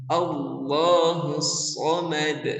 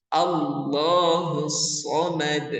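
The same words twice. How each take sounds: Both takes have the same delivery.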